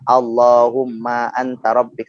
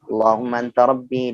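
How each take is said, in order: First: The phrase is recited slowly and carefully. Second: The phrase is recited quickly and smoothly. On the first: The reciter is not yet fluent. "Kalau orang yang kemudian belum lancar akan baca" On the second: The reciter is already fluent. "Kalau udah lancar"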